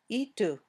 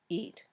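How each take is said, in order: First: An extra 'u' vowel follows the final t. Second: The word ends cleanly on the final t. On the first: The speaker calls it wrong. "or itu" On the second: The speaker calls it right. "Just eat"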